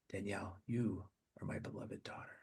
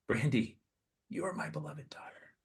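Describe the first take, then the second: First: Hushed Jesus. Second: Whispered Jesus. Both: Acted. Jesus speaks to listener.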